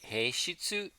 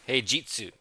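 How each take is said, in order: First: The middle consonant is a voiceless 'sh' sound. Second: The middle consonant is a voiced 'j' sound. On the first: The speaker calls it wrong. "not a she sound" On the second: The speaker calls it right. "with a G"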